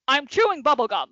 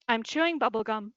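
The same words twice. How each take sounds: First: It is said in an angry tone. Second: It is said in a neutral tone.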